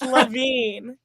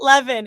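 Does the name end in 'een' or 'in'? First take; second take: een; in. First: The name ends with a long 'een' sound. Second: The name ends with a short 'in' sound. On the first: The speaker calls it right. "it's Levine" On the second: The speaker calls it wrong. "It's not Levin"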